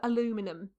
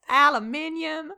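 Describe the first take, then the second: First: It is said the American way, four syllables. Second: It is said the Commonwealth way, five syllables. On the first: It quotes how someone else says it. "to quote an Alex pronunciation of that word" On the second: It is the version most of the group uses. "you are outnumbered by the Commonwealth"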